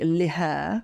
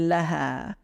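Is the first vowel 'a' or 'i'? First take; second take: i; a. First: The first vowel is i. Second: The first vowel is a. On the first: The speaker calls it wrong. "We don't say liha for her" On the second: The speaker calls it right. "we say leha"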